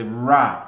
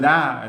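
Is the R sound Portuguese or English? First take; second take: English; Portuguese. First: The R is an English R. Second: The R is a Portuguese R. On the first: "quando a gente fala em inglês" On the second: "porque o ra"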